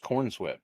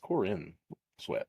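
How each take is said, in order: First: The first part is a single syllable, corn. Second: The first part has two syllables, Corin. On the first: The speaker calls it wrong. "I thought it was just corn sweat" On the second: The speaker calls it right. "but it's Corin Sweat"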